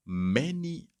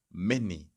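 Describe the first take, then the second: First: Many pitched high and pushed out; stress on many. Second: Said in the usual way. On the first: Shown as a demonstration. Teacher stressing how common the rule is, emphatic. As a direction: lean hard on the second many. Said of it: "I would say around eighty or ninety percent".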